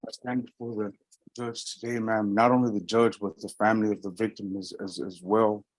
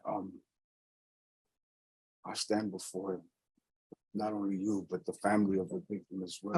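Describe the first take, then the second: First: More projected, audible statement; speaking up. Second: Hushed, barely audible statement; near whisper. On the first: Defendant repeating statement to judge, speaking up. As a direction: raise the voice enough to be heard. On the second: Defendant addressing judge and victim's family, very quietly. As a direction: speak softly, hardly projecting. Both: Real, not acted. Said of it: "but you're whispering".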